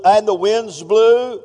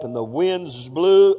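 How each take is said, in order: First: Louder, slow and drawn out; slow booming preacher line; slow dramatic boom. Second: Said in the usual way. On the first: Shown as a demonstration. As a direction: make the wind sound big. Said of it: "that's just a breeze". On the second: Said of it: "oh, that's just a breeze".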